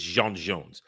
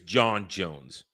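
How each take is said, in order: First: The first name has the vowel of 'Jean'. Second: The first name has the vowel of 'John'. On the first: This is the original Martian form of the name. "but it's Jean Jones" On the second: This is the human form of the name. "when you pronounce it in human"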